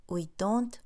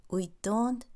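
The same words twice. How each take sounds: Both takes have the same delivery.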